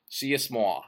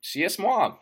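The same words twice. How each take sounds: First: Said in the usual way. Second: Tongue-in-cheek literary grandeur; mock pretentious. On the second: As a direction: proclaim it like a pompous novelist. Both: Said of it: "I'm sounding fucking pretentious".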